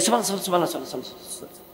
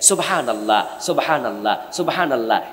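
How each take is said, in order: First: The phrase is rattled off very fast. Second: The phrase is said slowly and carefully. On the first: The words are rushed without care. The speaker calls it wrong. "আপনি দেখবেন যে এমন গতি এরকম করতেছে।" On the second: Each word is pronounced properly. The speaker calls it right. "এরকম যদি আপনি পড়েন উচ্চারণ শুদ্ধ করেন তাহলে তো আপনার আঙ্গুল আসতে চলবে"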